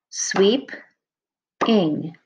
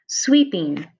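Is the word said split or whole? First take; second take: split; whole. First: The word is said with a break inside. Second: The word is said without any break. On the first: "And then ing is your second syllable" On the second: "when we clap these words out, they look like this"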